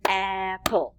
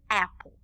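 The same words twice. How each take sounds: First: APPLE split into two beats, AP-PLE; clapped-out syllables. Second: Said in the usual way. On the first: Shown as a demonstration. Teacher clapping syllables with children, APPLE in two separated beats. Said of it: "let's clap out the syllables for apple". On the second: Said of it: "clap out the syllables for apple".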